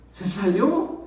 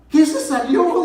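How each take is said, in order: First: Said in the usual way. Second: High, loud demand to know; wife's shocked shout, reenacted; imitating alarmed wife. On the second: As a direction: yell the question back in disbelief.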